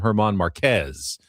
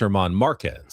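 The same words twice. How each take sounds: First: The stress in Marquez is on the second syllable. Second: The stress in Marquez is on the first syllable. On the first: The speaker calls it wrong. "I've been calling him" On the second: The speaker calls it right. "Didn't notice the accent on the A"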